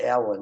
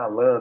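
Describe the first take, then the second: First: The name is said the English way. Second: The name is said the Portuguese way. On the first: This is how English speakers say the name. The speaker calls it right. "eles vão chamar de Alan" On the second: This is not how English speakers say the name. The speaker calls it wrong. "Não é Alan"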